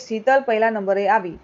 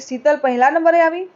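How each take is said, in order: First: It is said as a plain statement. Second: It is said as a question.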